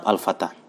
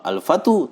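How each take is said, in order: First: The word ends with a plain a sound. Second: The word ends with an added u sound. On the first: The speaker calls it right. "tetap al-fata" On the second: The speaker calls it wrong. "tidak bisa"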